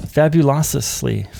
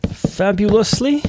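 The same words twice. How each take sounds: First: Fabulously slow, falling, syllables stretched; drawn-out repeat. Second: Fabulously sung high and slow, rising; playful sing-song. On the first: Repeating the word to himself, slow falling. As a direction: let fabulously fall slowly. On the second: Savouring the word for viewers, high sing-song. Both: Real, not acted.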